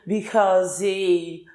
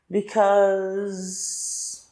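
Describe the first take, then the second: First: An extra vowel is added and drawn out at the end. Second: The middle vowel is drawn out; it ends on s. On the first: The speaker calls it wrong. "eu não tenho que fazer because, porque esse é não existe na fala" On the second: The speaker calls it right. "eu alongo esse ditongo aqui do meio"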